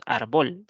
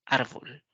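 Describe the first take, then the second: First: "árbol" mispronounced with the stress on BÓL; "árbol" as ar-BÓL, end-stressed; wrong stress, arBÓL. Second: "árbol" with the stress on the first syllable; "árbol" as ÁR-bol, falling at the end. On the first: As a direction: shift the accent of "árbol" to the last syllable. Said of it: "Nosotros no decimos árbol". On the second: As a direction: lean on ÁR and let "bol" drop in "árbol". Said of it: "sino decimos árbol". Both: Shown as a demonstration.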